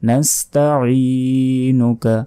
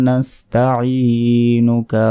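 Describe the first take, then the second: The two takes are said the same way.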